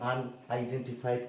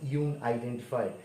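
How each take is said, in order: First: The word begins with a short 'un' sound. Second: The word begins with a 'yoo' sound. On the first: The speaker calls it right. "এখানে ইউর উচ্চারণ আসছে না" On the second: The speaker calls it wrong. "যদি উচ্চারণ এমন হতো ইউন আইডেন্টিফাইড"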